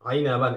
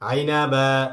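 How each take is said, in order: First: It ends with a short a and n sound. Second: It ends with a stretched long a vowel. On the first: The reader continues without stopping. "আর ওয়াকফ না করলে কোনো টান নেই।" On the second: The reader stops on this word. "দুই জবর বিশিষ্ট তানবিনের ক্ষেত্রে একালিফ টেনে পড়তে হবে।"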